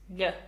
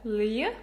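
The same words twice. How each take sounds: First: It is one single merged sound. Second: It glides from an l into a y sound. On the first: The speaker calls it right. "It's just one sound" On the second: The speaker calls it wrong. "people usually say l- um, lj, lj, but it's actually not moving from one to other sound"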